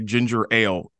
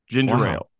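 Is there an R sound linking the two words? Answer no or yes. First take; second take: no; yes. First: The two words are kept apart without an r. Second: An r sound links the words, like ginger rail. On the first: "I had to try really hard just to say ginger ale" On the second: "I fully say ginger ale. Like"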